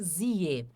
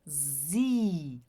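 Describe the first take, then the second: First: The vowel glides from i into e. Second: The vowel is a single long i. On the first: The speaker calls it wrong. "a gente nunca vai dizer zie" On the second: The speaker calls it right. "a gente faz o som do I mais longo"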